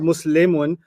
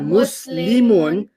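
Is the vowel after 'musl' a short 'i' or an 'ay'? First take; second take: ay; short i. First: The vowel after 'musl' is an 'ay'. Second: The vowel after 'musl' is a short 'i'. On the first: The speaker calls it wrong. "not muslimun. Muslimun moved to Kabul" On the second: The speaker calls it right. "we're not learning Dari, we're learning Arabic"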